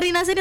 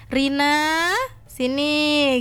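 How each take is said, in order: First: It is said plainly and casually. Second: It is said with stern emphasis.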